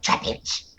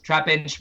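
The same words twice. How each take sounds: First: Rough, unpitched Pokemon cry; Pokemon-style name cry. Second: Said in the usual way. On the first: Acted. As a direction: call the name as a Pokemon would. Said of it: "You are a Pokemon".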